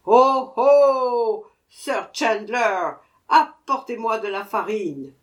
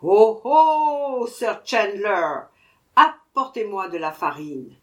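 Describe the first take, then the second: First: Dwarf shouting louder for flour; even louder cry. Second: Dwarf yelling for flour; crying out at top of voice. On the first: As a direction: call out harder. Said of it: "cria encore plus fort qu'avant". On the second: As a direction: yell for the flour merchant. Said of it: "cria à tue-tête". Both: A narrator's reading.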